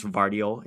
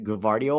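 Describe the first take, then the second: First: Gvardiol opening straight on a V sound; silent G. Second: Gvardiol opening on a hard G before the V; sounded G. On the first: Streamer asking chat how to say it, Gvardiol with silent G. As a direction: say Gvardiol without any G at the front. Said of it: "is it just the G silent". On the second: Streamer offering chat the other option, Gvardiol with sounded G. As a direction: say Gvardiol as guh-VAR-dee-ol. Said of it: "Is it Gvardiol or". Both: Shown as a demonstration.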